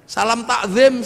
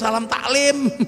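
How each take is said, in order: First: The second word has a z sound. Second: The second word has an l sound.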